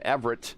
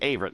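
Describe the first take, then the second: First: The name begins with a short vowel sound. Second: The name begins with a long A sound. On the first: The speaker calls it wrong. "I said it wrong" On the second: The speaker calls it right. "Long A for Averett"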